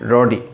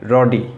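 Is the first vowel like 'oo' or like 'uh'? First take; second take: uh; uh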